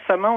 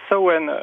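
First: It is pronounced following its written spelling. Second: It is pronounced the Irish way, unlike spelling. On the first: The speaker calls it wrong. "on dit pas Samhain" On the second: The speaker calls it right. "on dit plutôt Samhain, parce que en irlandais, ça se prononce pas du tout comme ça s'écrit"

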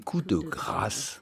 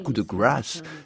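First: It is said with a French-sounding pronunciation. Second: It is said with an American-sounding pronunciation. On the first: The speaker calls it right. "c'est coup de grâce" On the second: The speaker calls it wrong. "I'm saying it the American way"

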